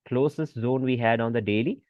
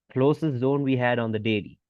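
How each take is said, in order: Both takes have the same delivery.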